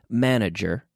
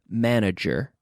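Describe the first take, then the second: The two takes are said the same way.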